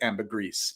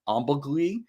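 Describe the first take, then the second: First: The word has a common English pronunciation. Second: The word has a French pronunciation. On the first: This is how most people tend to say it. "there's this tendency to pronounce it ambergris" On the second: This is how it would be said in French. "if we're going to pronounce it in French"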